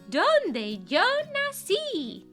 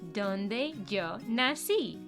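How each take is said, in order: First: It is said in a put-on cartoon character voice. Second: It is said in a natural speaking voice.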